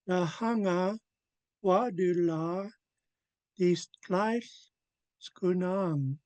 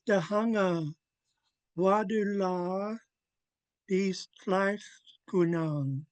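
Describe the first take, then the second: The two takes are said the same way.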